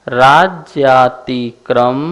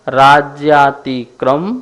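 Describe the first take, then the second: The two takes are said the same way.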